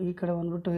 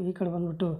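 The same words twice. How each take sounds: The two takes are said the same way.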